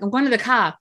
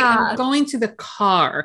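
First: The word car is said without the r. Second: The word car is said with a clear r. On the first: "the one word that is stuck with me" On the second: "I have to kind of like purposely say it in advance"

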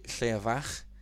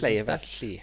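First: The name is pronounced with Welsh sounds. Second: The name is pronounced with English sounds. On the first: "I would say Leavach in Welsh" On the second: "I'll probably mispronounce this"

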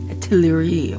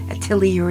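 First: It is said with a French accent. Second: It is said with a plain English accent. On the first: The speaker calls it right. "I'll use my Frenchman pronunciation accent" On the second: The speaker calls it wrong. "I can't do it"

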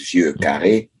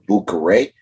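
First: The name begins with a V sound. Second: The name begins with a B sound. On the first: The speaker calls it right. "but it is Vieux Carré" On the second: The speaker calls it wrong. "which American people will call Boucaré"

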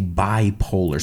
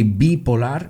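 First: The word is pronounced with English sounds. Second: The word is pronounced with Spanish sounds. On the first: This is how the speaker's own group says it. "we say bipolar" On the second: This is how the other speaker's language says it. "You say bipolar"

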